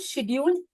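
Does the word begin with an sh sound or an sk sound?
sh. The word begins with an sh sound. This is the British form. "It's called शेड्यूल British English"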